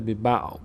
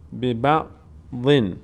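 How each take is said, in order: First: The word ends on a bare consonant. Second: The word ends with a final -un sound. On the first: The reciter stops at this word. "در هنگام وقف ... ساکن میشه" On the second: The reciter continues without stopping. "در هنگام وصل اگر ادامه بدیم تنوین به بعضن میشه"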